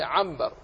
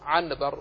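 First: عنبر said as 'ambar; correct m pronunciation. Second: عنبر with a clear n, 'an-bar; unused n pronunciation. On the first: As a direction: noon of عنبر turned into meem. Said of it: "وإنما هي عنبر". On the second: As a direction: sound the noon in عنبر before the b. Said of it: "ولا أحد يقول". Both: Shown as a demonstration.

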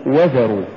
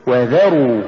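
First: وذروا run together, no push on ذ; wrong stress. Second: وذروا with و set apart and ذروا pushed; push after waw. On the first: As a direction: say وذروا quickly as one word. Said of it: "ولا تقل". (نطق وذروا دون دفع الذال) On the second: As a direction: lean on the ذ in وذروا. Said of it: "قل". (نطق وذروا بدفع الذال بعد الواو) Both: Shown as a demonstration.

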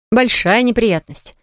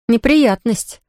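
First: Большая slowed and leaned on; stress on большая. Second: Said in the usual way. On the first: Shown as a demonstration. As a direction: draw out большая, then let неприятность fall.

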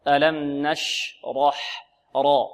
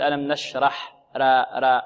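First: نشرح slow, with thick dark ra; heavy raa. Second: نشرح and را with a thin front aa; light r in نشرح, as a mistake; wrongly light raa. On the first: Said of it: "فرق". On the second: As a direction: demonstrate the error: no heaviness on را. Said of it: "ولا نقول". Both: Shown as a demonstration.

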